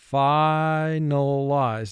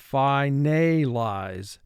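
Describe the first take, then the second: First: It is said with the normal, relaxed vowels. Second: Each syllable is said with full, clear vowels.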